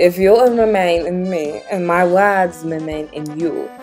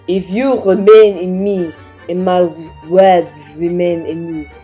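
First: It is spoken in a neutral accent. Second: It is spoken in a French accent.

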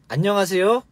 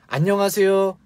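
Both takes have the same delivery.

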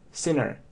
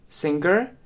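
First: No hard g follows the ng sound. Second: A hard g follows the ng sound. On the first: The speaker calls it right. "если посмотреть транскрипцию и правильное произношение, то именно sinner" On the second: The speaker calls it wrong. "может слышаться как singer"

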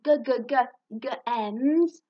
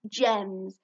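First: The word begins with a repeated hard g. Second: The word begins with a soft j sound. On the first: The speaker calls it wrong. "It's not g-g-g-g-ems" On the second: The speaker calls it right. "even though it sounds like a j"

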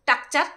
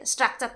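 First: The word begins with a plain 't' sound. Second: The word begins with a full 'str' cluster. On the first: This is how someone else mispronounces it. The speaker calls it wrong. "হ্যাঁ টাকচার বলে" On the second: This is the standard English pronunciation. The speaker calls it right. "স্ট্রাকচার তো বলে না"

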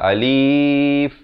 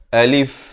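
First: The vowel is drawn out long. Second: The vowel is kept short. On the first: The speaker calls it wrong. "jangan panjang" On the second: The speaker calls it right. "A dengan lif dua suku kata"

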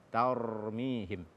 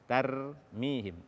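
First: The 'r' sounds heavy and thick. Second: The 'r' sounds light and thin. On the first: The speaker calls it right. "Dibaca dia dengan tebal" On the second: The speaker calls it wrong. "menipiskan ro pada kata tarmihim"

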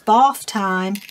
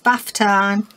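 First: It is said in a southern English accent. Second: It is said in a northern English accent. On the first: "But some people say it's bath time" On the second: "For us, we're gonna say"

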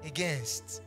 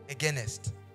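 First: The word ends in a plain 'nst' sound. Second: An extra vowel comes before the final 'st'. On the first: "it is pronounced as against" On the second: "not againest"

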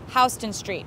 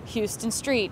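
First: Houston sounds unlike the Texas city's name. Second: Houston sounds like the Texas city's name. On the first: The speaker calls it right. "Incorrect, Houston Street" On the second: The speaker calls it wrong. "oh, Houston, Texas, Houston Street"

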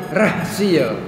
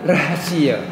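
The two takes are said the same way.

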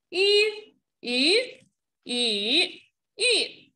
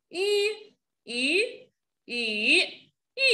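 The two takes are said the same way.

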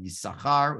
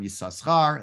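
First: The extra 's' sound is left silent. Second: The extra 's' sound is pronounced. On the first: "with a silent a sin in it" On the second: "the first time"

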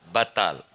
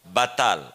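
The two takes are said the same way.

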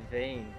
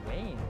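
First: The name begins with a V sound. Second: The name begins with a W sound. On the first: The speaker calls it wrong. "I always pronounced it Vane" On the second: The speaker calls it right. "Wayne it is"

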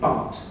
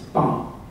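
First: The final consonant is fully pronounced. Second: The final consonant is left off. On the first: "instead of being bart" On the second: "they don't enunciate final consonants"

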